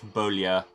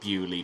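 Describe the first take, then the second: First: The name is said with a French pronunciation. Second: The name is said with an English pronunciation. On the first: "It's just the French Beaulieu" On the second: "decided to pronounce it Bewley because we're English"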